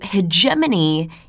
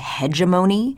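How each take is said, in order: First: The ending does not sound like 'matrimony'. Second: The ending sounds like 'matrimony'. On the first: "the way I like to pronounce it" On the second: "it sounds to me like a marital arrangement of some sort"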